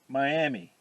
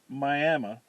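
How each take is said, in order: First: The name is said the usual, spelled-out way. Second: The name is said the local Oklahoma way. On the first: This is how the spelling suggests saying it. "but spell it Miami" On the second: This is how the town's people say it. "where they pronounce it Miami"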